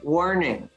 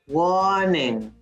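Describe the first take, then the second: First: The R after the first vowel is pronounced. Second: The R after the first vowel is dropped. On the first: "We don't in North America. We would say" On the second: "Brit- in Britain, they would say"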